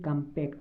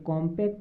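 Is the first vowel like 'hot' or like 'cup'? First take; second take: like cup; like hot. First: The first vowel sounds like the 'u' in 'cup'. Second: The first vowel sounds like the 'o' in 'hot'. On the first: The speaker calls it right. "ये कम्पैक्ट है" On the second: The speaker calls it wrong. "ये कॉम्पैक्ट नहीं है"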